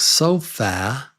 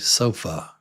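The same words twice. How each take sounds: First: The final vowel is a full vowel. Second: The final vowel is a reduced schwa. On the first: The speaker calls it wrong. "So it looks like sofa" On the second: The speaker calls it right. "but it's actually sofa"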